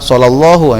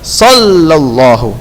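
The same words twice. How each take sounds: First: It is said hurriedly and fast. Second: It is said calmly and slowly. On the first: The speaker calls it wrong. "Ada sebagian yang setoran begini ... itu enggak tepat. ... jangan buru-buru nak" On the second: The speaker calls it right. "Tenang saja"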